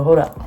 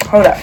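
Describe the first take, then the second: First: Said in the usual way. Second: "Hold up" громче и резче, с нажимом; второе "Hold up" громко и настойчиво; emphatic. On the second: Real, not acted. Repeated louder.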